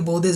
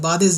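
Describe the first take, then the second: First: The word is said with a 'u' vowel. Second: The word is said with an 'a' vowel. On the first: It means far from. "इस पे ज़बर के बदले में पेश है" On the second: It means after. "ये बाद ज़िल्लत नहीं"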